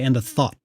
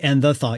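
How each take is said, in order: First: The word thought is stressed. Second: The word thought is not stressed. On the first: The speaker calls it right. "you kind of want thought to be on the one there" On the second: The speaker calls it wrong. "because you don't say and the thought"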